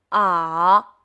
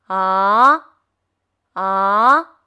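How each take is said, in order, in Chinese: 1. 音调先降下去，再升上来。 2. 音调从中到高上升。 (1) "下坡上坡" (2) "汽车上坡"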